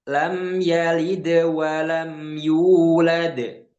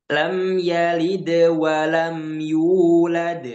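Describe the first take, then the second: The two takes are said the same way.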